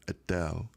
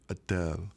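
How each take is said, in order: Both takes have the same delivery.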